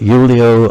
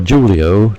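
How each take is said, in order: First: The name is said the German way. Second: The name is said the English way.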